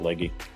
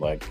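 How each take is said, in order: First: The name is said with two syllables. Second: The name is said with one syllable. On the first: "Some people pronounce it Leggy" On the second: "but Catherine Legg"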